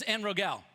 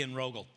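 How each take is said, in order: First: "En Rogel" with a full, clear "gel" ending, pitched higher; "En Rogel" ending like "gell"; first pronunciation. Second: "En Rogel" with a weak, reduced last syllable; "En Rogel" ending in a quick, unstressed "gul"; corrected pronunciation. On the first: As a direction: say "En Rogel" with a full E in the last syllable. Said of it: "or actually En Rogel". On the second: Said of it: "Uh, emphasis on the, well". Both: Shown as a demonstration.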